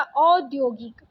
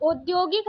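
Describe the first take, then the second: First: Said in the usual way. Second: औद्योगिक starting with closed o; wrong vowel. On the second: Shown as a demonstration. Teacher rejecting a spelling, औद्योगिक with plain o. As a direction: say औद्योगिक as "od-yogik". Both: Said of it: "औद्योगिक नहीं होता".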